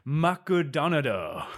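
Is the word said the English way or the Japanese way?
Japanese. It is said with Japanese sounds and added vowels.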